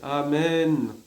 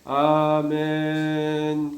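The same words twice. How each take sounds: First: The word is said clearly at normal length. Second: The word is stretched out far too long. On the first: The word is said properly. The speaker calls it right. "si on dit bien son Amen" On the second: It no longer says the word properly. The speaker calls it wrong. "quelqu'un qui dit un Amen trop long, Amen, comme ça"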